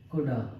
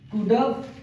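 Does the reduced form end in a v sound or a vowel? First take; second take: vowel; v sound. First: It is said as one word ending in a vowel. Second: It is said as one word ending in v. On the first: It is the slang form. "इसका हम slang use कर सकते हैं कुडा" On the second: It is the contracted form. "Contraction कर सकते हैं कुडव"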